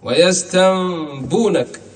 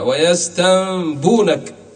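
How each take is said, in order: Both takes have the same delivery.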